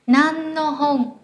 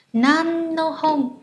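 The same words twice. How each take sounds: First: "Nan no hong" slowly, with a long, drawn-out "nan"; say "nan" before no. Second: "Nan no hong" with a long, drawn-out "nan"; say "nan" before no. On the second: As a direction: stretch the "nan" slowly before "no". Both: Shown as a demonstration. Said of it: "chúng ta đã học là từ no".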